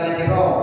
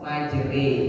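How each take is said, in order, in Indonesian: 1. Kata itu diakhiri vokal o. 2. Kata itu diakhiri vokal e. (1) "bukan majro" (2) "memiringkan bunyi fathah kepada kasroh"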